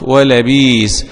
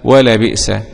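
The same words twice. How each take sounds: First: The hamza becomes a long i sound. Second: The hamza is a clear glottal stop. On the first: "بإبدال الهمزة" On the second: "بتحقيق الهمزة"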